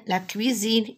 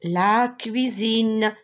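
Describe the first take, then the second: First: Said in the usual way. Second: Very slow "cuisine", the ZINE stretched out; "cuisine" modelled slowly, leaning on the voiced Z; sounded-out cuisine. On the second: Shown as a demonstration. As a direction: draw out "cuisine" so the Z in the middle buzzes.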